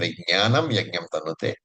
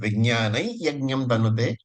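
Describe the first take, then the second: First: The first word ends in a clear m sound. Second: The first word ends in a nasal glide. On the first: It does not follow the traditional chanting style. "or you can pronounce as Vijnanam Yajnam Tanute" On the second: It follows the traditional chanting style. "traditionally, Vijnanai is used"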